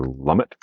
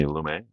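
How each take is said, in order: First: "Lumet" as LUM-it, t sounded; anglicized pronunciation. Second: "Lumet" as loo-MAY, silent t; French-style pronunciation. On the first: Vlogger offering the other pronunciation, "Lumet" as LUM-it. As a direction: say "Lumet" to rhyme with "summit". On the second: Vlogger naming the film's director, French-style "Lumet" as loo-MAY. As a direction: say "Lumet" to end in an "ay" sound. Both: Shown as a demonstration. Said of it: "depending on how you pronounce it".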